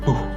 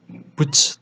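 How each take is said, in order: First: The word ends in a breathy hiss. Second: The word ends in a 'tch' sound. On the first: "karena bahasa Jerman jadi Buh" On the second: "harusnya kan Butch"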